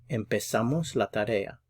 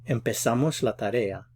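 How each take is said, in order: No difference in how they are said.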